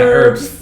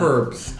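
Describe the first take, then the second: First: The word starts with a vowel, no h sound. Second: The word starts with a clear h sound. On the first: The speaker calls it right. "the H is silent" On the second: The speaker calls it wrong. "We don't say"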